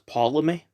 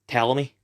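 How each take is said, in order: First: It starts with a sounded P, like Potlemy. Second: It starts with a T sound, P silent. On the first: "like if the T and the O were swapped around" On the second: "like silent P"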